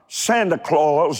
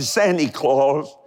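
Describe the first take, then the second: First: Santa ends with a plain 'ah' vowel sound. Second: Santa ends with an 'ee' vowel sound.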